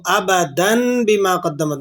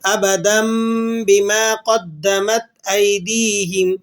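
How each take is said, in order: First: Slow ابدن with a drawn-out clear n before بما; wrong noon reading. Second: Slow recitation, ابدن ending in a long hummed m; iqlab, tanween as meem. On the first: Teacher showing what students must avoid, wrong noon reading. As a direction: keep the n, "abadann bima", in ابدن. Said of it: "نہیں، نہیں". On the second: Teacher showing it read with meem, iqlab recitation. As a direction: chant "abadammm bima", the n of ابدن changed to m. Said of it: "میم کی آواز کے ساتھ اس کو پڑھنا". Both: Shown as a demonstration.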